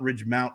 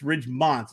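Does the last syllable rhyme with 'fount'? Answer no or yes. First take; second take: yes; no. First: The last syllable rhymes with fount. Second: The last syllable does not rhyme with fount. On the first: The speaker calls it wrong. "not Ridgemount High" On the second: The speaker calls it right. "it's not a fount. It's Ridgemont"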